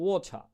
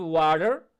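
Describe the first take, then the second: First: ওয়াটার said the British way, "wo-tha" with no final r; British pronunciation. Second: American pronunciation. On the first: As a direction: say ওয়াটার with a British rounded vowel and crisp t. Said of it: "British উচ্চারণটা হবে". (British উচ্চারণে ওয়াটার) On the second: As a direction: say ওয়াটার with an American flapped t. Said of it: "American উচ্চারণটা হবে". (American উচ্চারণে ওয়াটার) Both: Shown as a demonstration.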